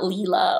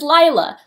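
First: The first syllable rhymes with 'lee'. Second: The first syllable rhymes with 'lie'. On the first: The speaker calls it wrong. "not Leela or anything else like that" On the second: The speaker calls it right. "Lila is Lila, like Delilah"

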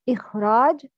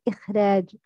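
First: The kha sound is heavy and full. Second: The kha sound is light and thin. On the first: The speaker calls it right. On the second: The speaker calls it wrong.

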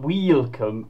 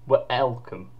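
First: The vowel after the W sounds like 'ee'. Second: The vowel after the W sounds like 'eh'. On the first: The speaker calls it wrong. "it's not an E sound, it's not welcome" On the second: The speaker calls it right. "it's more like welcome"

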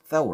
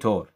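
First: It is said with a Standard Arabic pronunciation. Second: It is said with a Syrian dialect pronunciation. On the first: "in original Arabic, it's Thor" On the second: "we in Syria, we don't say Thor. We say Thor"

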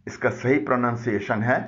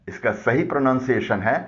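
Both takes have the same delivery.

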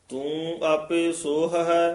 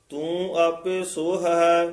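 Both takes have the same delivery.

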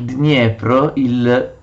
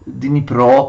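First: The name is said in its usual Italian form. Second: The name is said the way Ukrainians say it.

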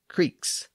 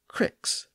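First: The vowel is a long 'ee', like 'creeks'. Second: The vowel is a short 'i', like 'cricks'. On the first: This is the modern pronunciation. "not creeks" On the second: This is the older pronunciation.

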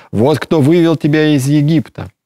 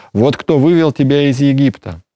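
The two takes are said the same way.

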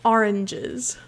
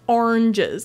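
First: The word is said with three syllables. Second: The word is squeezed into two syllables. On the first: This is how the speaker really says it. The speaker calls it right. "I say oranges" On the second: This is not how the speaker really says it. The speaker calls it wrong. "I don't say oranges like as two syllables"

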